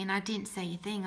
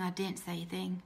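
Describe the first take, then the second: First: Said in the usual way. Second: Softer, sinking repeat; a softer echo of her own silence; quieter repeat. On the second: Real, not acted. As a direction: let it drop away on the repeat.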